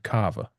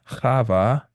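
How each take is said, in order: First: The word starts with a hard k sound. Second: The word starts with a soft, breathy sound.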